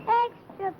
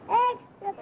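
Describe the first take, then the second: Both takes have the same delivery.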